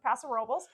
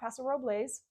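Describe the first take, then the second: First: The name is said the way locals say it. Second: The name is said the way outsiders say it. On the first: This is how residents say the name. The speaker calls it right. "the locals pronounce it Paso Robles" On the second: This is how residents do not say the name. The speaker calls it wrong. "not Paso Robles"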